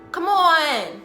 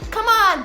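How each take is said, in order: First: Said in her own natural cheering style. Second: Said imitating the other girls' cheering style. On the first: She speaks the way she always has. "I didn't even realize I was saying it different" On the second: She hides part of herself to fit in. "I learned how to cheer like this, like them"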